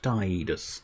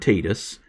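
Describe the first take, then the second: First: The first syllable sounds like tide. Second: The first syllable sounds like tee. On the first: The speaker calls it right. "as in the word tide" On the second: The speaker calls it wrong. "it sounds too much like the word tedious"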